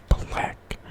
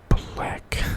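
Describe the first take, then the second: The two takes are said the same way.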